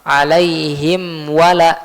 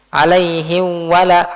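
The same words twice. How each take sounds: First: The m is said clearly with lips fully closed. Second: The m is softened and blurred into the w. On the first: The speaker calls it right. "harus dibaca dengan idhar" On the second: The speaker calls it wrong. "Jangan sampai dibaca dengan ikhfa. Bacanya seperti ini"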